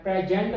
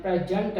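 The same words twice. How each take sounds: First: प्रेजेंट said pray-JENT; full second vowel. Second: प्रेजेंट said PREH-junt; short open first vowel, weak जंट in प्रेजेंट; reduced second vowel. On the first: Teacher shows common error, full vowel in प्रेजेंट. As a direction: give प्रेजेंट a clear E in the second syllable. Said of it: "बोलते हैं". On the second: Teacher corrects it, reduced second vowel in प्रेजेंट. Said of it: "ए की sound है". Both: Shown as a demonstration.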